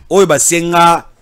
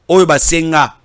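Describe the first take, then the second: No difference in how they are said.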